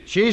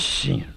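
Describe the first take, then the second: First: The word is shouted loudly. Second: The word is said quietly and softly. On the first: "100 pesos más por gritarle al juez" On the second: "Pues dígalo fuerte"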